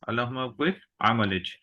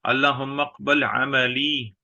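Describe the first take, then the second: First: The last word ends in a 'j' consonant. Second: The last word ends in an 'ee' vowel. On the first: "तो इस लुगत में कैसे बोलेंगे?" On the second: "इसी तरह जुमला जो है"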